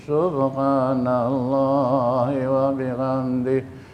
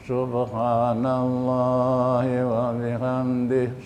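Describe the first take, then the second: The two takes are said the same way.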